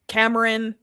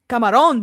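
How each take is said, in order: First: The name is said with an English pronunciation. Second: The name is said like the Spanish word. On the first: This is the name as it should be said. The speaker calls it right. "they can't pronounce Cameron's name" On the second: This is how the parents mispronounce the name. The speaker calls it wrong. "Camarón, though. Shrimp in Spanish"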